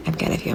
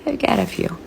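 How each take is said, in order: First: I've got a few whispered softly; a whispered confession; whispered aside. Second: Said in the usual way. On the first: Shown as a demonstration. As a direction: repeat it as a hushed secret.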